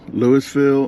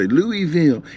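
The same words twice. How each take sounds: First: The s sound in the middle is pronounced. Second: The s sound in the middle is dropped. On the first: The speaker calls it right. "I'm saying Louisville like that" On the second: The speaker calls it wrong. "some people's like they always have to say Louisville"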